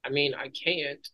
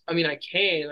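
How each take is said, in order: First: Said in the usual way. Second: "can" corrected with a falling tone; "I mean, I can" as a self-correction; correcting to can. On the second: Real, not acted.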